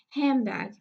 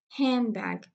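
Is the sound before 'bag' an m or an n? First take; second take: m; m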